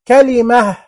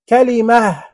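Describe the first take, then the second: Both takes have the same delivery.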